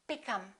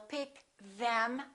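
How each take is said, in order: First: The th in them is dropped. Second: The th in them is fully pronounced. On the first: The speaker calls it right. "We drop this T H" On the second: The speaker calls it wrong. "we don't say"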